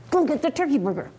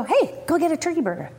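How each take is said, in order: First: Low, quick, tight command; insistent repeated order. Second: Said in the usual way. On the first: Retold or imitated. Mother repeating an order to her refusing son, low and insistent. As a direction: order it with restrained impatience.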